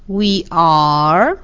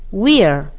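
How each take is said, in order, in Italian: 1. Il verbo si pronuncia come parola separata, in forma piena. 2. Il verbo è abbreviato e unito al pronome. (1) "La forma intera" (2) "Nella forma contratta, ... scompare la vocale iniziale del verbo"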